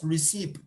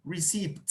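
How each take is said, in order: Both takes have the same delivery.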